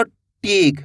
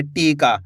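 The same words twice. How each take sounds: First: टीक ending on a bare k after long ee; no final vowel. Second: टीका with long ee and long aa; drawn-out word. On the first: Teacher shows the word without its aa sign, टीक ending on k. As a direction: stop टीक on the k. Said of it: "अगर आ की मात्रा नहीं होगी". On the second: Teacher shows the word with its final vowel sign, टीका drawn out. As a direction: stretch both vowels of टीका. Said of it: "अब खींच के पढ़ा जाएगा". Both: Shown as a demonstration.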